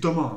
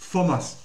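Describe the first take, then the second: First: The th is said as a plain t sound. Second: The th is said as an English th sound. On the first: The speaker calls it wrong. "vous n'avez pas de prononcer Thomas" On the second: The speaker calls it right. "c'est Thomas"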